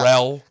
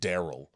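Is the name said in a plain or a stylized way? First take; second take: stylized; plain. First: The name is said in a marked, stylized way. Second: The name is said in a plain, ordinary way. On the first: "you gotta pronounce it blacker" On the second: "his name's fucking Daryl"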